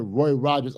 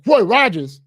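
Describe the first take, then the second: First: Said in the usual way. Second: Loud, high exclamation of delight; excited recognition. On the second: Retold or imitated. Driver spotting a favorite restaurant, excited. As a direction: burst out at a happy sighting.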